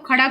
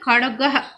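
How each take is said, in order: First: The word ends without a final breathy 'ah'. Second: The word ends with a final breathy 'ah'. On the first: The speaker calls it wrong. "खड़ग नहीं पढ़ेंगे" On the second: The speaker calls it right. "ये अह का उच्चारण करेंगे"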